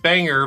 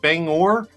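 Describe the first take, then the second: First: The second syllable sounds like 'ger'. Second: The second syllable sounds like 'gor'. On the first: The speaker calls it wrong. "I kept saying Banger" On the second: The speaker calls it right. "but it's Bang Bangor"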